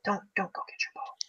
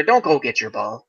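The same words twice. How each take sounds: First: Breathless whisper, much softer; whispered warning. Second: Said in the usual way. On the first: Real, not acted. Warning golfers in Florida about their ball, whispered. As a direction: hiss it like a secret warning.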